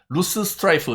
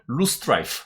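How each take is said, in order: First: The middle s sound is said twice, separately. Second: The middle s sound is said only once. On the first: The speaker calls it wrong. "이렇게 발음하시면 잘못된 발음이에요" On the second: The speaker calls it right. "이렇게 한 방에 발음하시면 됩니다"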